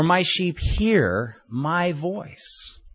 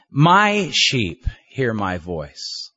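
First: Very slow, "hear" lifted and held with a rise; stress on HEAR. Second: Slow, with "My" leaned on hard; stress on MY. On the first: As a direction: draw out "hear", as if listening is the point. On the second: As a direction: dwell on "My", as if it is His own flock. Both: Shown as a demonstration. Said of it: "meditate on a verse by emphasizing each word".

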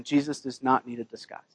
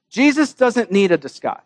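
First: "not" leaned on, whole line much softer; quiet stress on not. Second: Said in the usual way. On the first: Shown as a demonstration. Preacher driving home his point to the congregation, soft and firm. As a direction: drop the voice and press "not".

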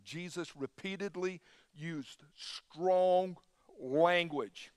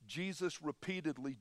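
First: Slow, deliberate line with strong leaned on and falling; stress on strong. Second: Said in the usual way. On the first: Shown as a demonstration. Preacher restarting for emphasis, slow stress on strong. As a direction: weigh each word, punch strong.

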